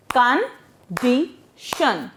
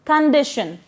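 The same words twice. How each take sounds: First: Condition split into three slow, separate beats; syllable by syllable. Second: Said in the usual way. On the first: Shown as a demonstration. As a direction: say Condition slowly with a gap between syllables. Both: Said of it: "we break the word there".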